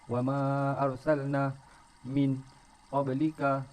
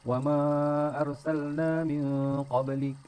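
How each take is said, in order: First: There is a breath pause after every word. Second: The words flow together without any pauses. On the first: The speaker calls it wrong. "Macam kita akan tarik nafas. Kita setiap satu kalimah kita akan ambil nafas" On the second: The speaker calls it right. "Kita kena baca"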